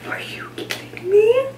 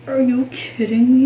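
First: High breathless whisper of delight; excited whisper. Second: Said in the usual way. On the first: Real, not acted. Mom-to-be whispering over tiny overalls, delighted. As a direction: squeal it under your breath. Gushing over baby clothes.

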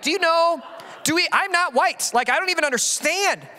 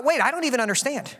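First: Higher, baffled protest; higher, disbelieving protest; incredulous retort. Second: Musing to himself; dawning realization. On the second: And then I thought. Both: Retold or imitated.

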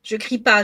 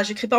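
First: Firm, raised voice on pas; insisting loudly that she isn't shouting; a bit loud. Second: Said in the usual way. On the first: Real, not acted. (un peu fort, en appuyant sur « pas »)

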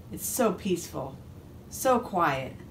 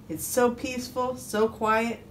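First: Understated peaceful relief; relieved, contented duck. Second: Higher-pitched, lightly voiced sigh of content; pleased little storybook duck. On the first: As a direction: let it sink down into calm. Duck relieved, alone at last. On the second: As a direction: savour the peace as the duck. Contented duck savours his calm. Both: A narrator's reading.

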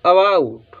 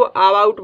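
First: अबाउट with a short first "uh", long "baa"; correct reading of अबाउट. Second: अबाउट opened with a long "aa"; students' wrong reading of अबाउट. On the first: Shown as a demonstration. Teacher corrects students, अबाउट with short first vowel. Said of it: "इसको सही पढ़ेंगे". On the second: Retold or imitated. Teacher quotes students' mistake, अबाउट with long first "aa". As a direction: say अबाउट as "aa-baa-ut". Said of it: "वो गलत पढ़ते हैं".

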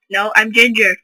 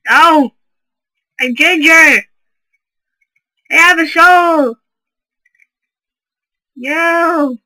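First: Said in the usual way. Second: Loud, high mock panic; hammed-up pleading yell.

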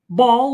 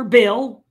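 First: "Baal" said firmly as BAWL, louder; "Baal" as one syllable with an AW vowel; pronounced BAWL. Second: "Baal" said firmly as BAY-ul; "Baal" with a long A before the L; pronounced BAY-ul. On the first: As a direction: say "Baal" to rhyme with "tall". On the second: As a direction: say "Baal" to rhyme with "sail". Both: Shown as a demonstration. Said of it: "some may pronounce it".

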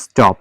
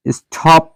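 First: স্টপ with a plain unaspirated ট for the T; no puff of air on the T in স্টপ; স্টপ said as "is-top", hard dry ট. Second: স্টপ with a breathy aspirated ঠ for the T; স্টপ said as "s-THop", heavy aspirated T; wrong aspirated T. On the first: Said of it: "তিনটে ছয় ট". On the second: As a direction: puff air on the T in স্টপ, like ঠ. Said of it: "না". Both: Shown as a demonstration.

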